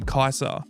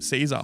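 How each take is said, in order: First: The name begins with a K sound. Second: The name begins with an S sound. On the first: "half the people call him Kaiser because they don't know how to pronounce the word" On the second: "So half the people calls him Caesar"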